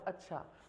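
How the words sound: It sounds polite, calmly agreeing.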